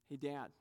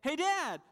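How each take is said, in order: First: Put-on soft, low, casual child's fishing for praise; quietly offhand mock hint to Dad; subtle hint. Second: High-pitched mock bragging call; hammed-up proud shout-out, pitched way up; boastful. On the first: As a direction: imitate a child casually angling for notice. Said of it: "We try these subtle ways". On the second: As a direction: imitate a child calling Dad to show off. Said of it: "it would be boastful to just say".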